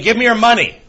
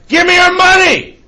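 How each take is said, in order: First: It is said at a normal, quiet volume. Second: It is said loudly.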